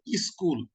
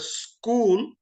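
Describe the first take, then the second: First: A short vowel is added before the s. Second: The word starts directly with the s sound. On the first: "They have to put a, a vowel before that" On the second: "it's very easy"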